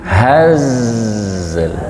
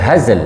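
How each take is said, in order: First: The final consonant trails off softly and smoothly. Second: The final consonant stops abruptly with no trailing sound. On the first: The speaker calls it right. "harus disempurnakan ekornya" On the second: The speaker calls it wrong. "nggak boleh hazl langsung"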